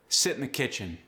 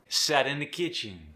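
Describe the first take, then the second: First: Standard English short I in sit. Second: Cajun vowel making sit sound like set.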